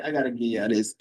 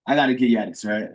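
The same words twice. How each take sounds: First: Said in the usual way. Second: Teasing reluctance. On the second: Real, not acted. Host teasing his live audience with a sighing reveal. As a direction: sigh it out like you're giving away a secret.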